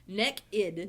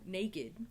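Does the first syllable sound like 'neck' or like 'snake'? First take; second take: neck; snake. First: The first vowel sounds like the one in 'neck'. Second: The first vowel sounds like the one in 'snake'. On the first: The speaker calls it wrong. "that is N E C K E D" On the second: The speaker calls it right. "Because there's an A in it"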